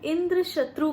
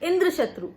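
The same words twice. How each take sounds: First: The stress falls on the second word. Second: The stress falls on the first word. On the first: The enemy of Indra. "मतलब इंद्र का शत्रु" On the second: One whose enemy is Indra. "यदि हमने इंद्र पर बलाघात दे दिया"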